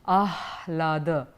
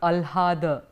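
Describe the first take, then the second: First: The h sound comes before the l. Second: The h sound comes after the l. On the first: The speaker calls it right. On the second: The speaker calls it wrong. "not alhada"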